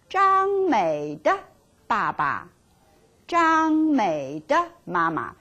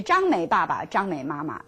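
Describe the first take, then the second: First: 张美的 with 的 clearly said, 的 stressed; slow and careful 张美的爸爸, 张美的妈妈; correct form with 的. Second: 张美爸爸 run together without 的, trailing off; wrong form, no 的. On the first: Teacher shows the right form with 的, careful and slow. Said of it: "You should say". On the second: Teacher shows the form students should avoid, trailing off. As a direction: drop the 的 as the wrong version, 张美妈妈. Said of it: "You don't say". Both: Shown as a demonstration.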